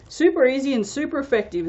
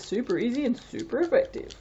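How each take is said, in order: First: Quick, upbeat catchphrase, a bit higher; Anthony's catchphrase. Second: Said in the usual way. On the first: Retold or imitated. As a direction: toss it off like a cheery slogan. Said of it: "as Anthony would like to say". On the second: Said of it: "he always says".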